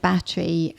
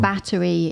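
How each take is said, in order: First: It is said with a British pronunciation. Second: It is said with an American pronunciation.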